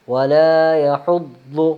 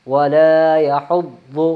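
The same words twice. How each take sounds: The two takes are said the same way.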